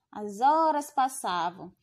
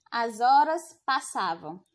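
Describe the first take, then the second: First: Said in the usual way. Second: "as horas passavam" said as if trailing into an ellipsis. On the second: Shown as a demonstration. Teacher showing the ellipsis to students. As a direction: let "as horas passavam" hang unfinished. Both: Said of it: "A gente vê esse trecho muito em livros".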